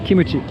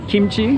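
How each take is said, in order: First: It is said with three syllables, kee-moo-chee. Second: It is said with two syllables, kim-chee. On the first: The speaker calls it wrong. "that's the Japanese pronunciation" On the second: The speaker calls it right. "it's supposed to be kimchi"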